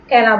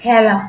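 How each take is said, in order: First: খেলা with a plain closed "e", as "khela"; closed vowel demo. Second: খেলা with an open "æ", as "khæla"; open vowel demo. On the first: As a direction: say খেলা with an unstretched "e". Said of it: "খেলা বলি না". (খেলা-র এ না টেনে, সংবৃত এ) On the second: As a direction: stretch the first vowel of খেলা into "æ". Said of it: "একটু টেনে বলি আমরা এটা". (খেলা-র এ একটু টেনে, অ্যা-র মতো) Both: Shown as a demonstration.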